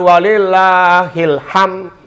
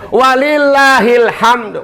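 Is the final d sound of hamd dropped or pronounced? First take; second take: dropped; pronounced. First: The final d sound is dropped. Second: The final d sound is pronounced. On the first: The speaker calls it wrong. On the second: The speaker calls it right.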